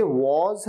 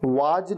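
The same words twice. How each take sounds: First: "was" ending in a z sound; correct was. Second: "was" ending in a j sound; mispronounced was. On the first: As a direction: say "was" as wawz. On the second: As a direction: say "was" as waaj. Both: Shown as a demonstration. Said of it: "was नहीं".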